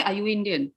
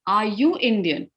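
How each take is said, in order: First: Said in the usual way. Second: "Are you Indian" with a lift on YOU; question intonation. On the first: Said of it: "I won't say". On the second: Shown as a demonstration. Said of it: "it goes up".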